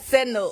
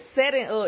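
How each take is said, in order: First: Setting is reduced, with its second syllable clipped. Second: Setting is said in full, with both syllables clear. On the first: This is how it is said in southern slang. "It's like setting up" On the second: This is the standard form, not the local one. "we don't even say setting up"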